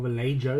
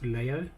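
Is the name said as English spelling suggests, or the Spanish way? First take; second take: English spelling; Spanish way. First: The name is read out as the spelling suggests. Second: The name is said with its native Spanish sounds. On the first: The speaker calls it wrong. "that's how it's written" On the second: The speaker calls it right. "it's actually pronounced Vallejo"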